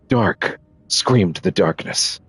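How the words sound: It is read in a serious Alan Wake voice.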